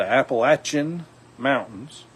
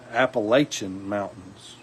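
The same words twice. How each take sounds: First: Appalachian with a short a, "latch" sound: ap-uh-LATCH-un; South Alabama Appalachian, short A like "latch". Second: Appalachian with a long a: ap-uh-LAY-shun, a bit slower; the other South Alabama Appalachian, long A like "lay". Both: Shown as a demonstration. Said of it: "it's either a short A or a long A".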